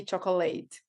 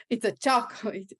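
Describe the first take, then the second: First: "chocolate" with the ending said as "late"; old mispronunciation. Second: "chocolate" punched on CHOC, ending reduced; retold correction. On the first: Retold or imitated. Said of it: "every time I used to". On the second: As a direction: correct it, hitting the first syllable of "chocolate". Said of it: "someone stopped me and said".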